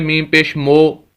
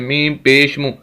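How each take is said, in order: First: The final vowel is an 'o' sound. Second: The final vowel is a short 'oo' sound. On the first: The speaker calls it wrong. "अब इसको कोई पढ़े" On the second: The speaker calls it right. "इसका सही तलफ़ुज़ ये है"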